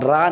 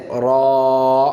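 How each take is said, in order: First: را short with an open, light "aa"; unrounded, quick را; thin, mistaken ra. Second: را with a thick rounded vowel, held long; slow, heavy model را; heavy full-mouthed ra. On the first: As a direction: say را without the heavy rounding, like "raa". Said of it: "را نہیں کہیں". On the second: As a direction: say را full-mouthed, like a drawn-out "raw". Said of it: "آپ اس کو موٹی آواز کریں". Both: Shown as a demonstration.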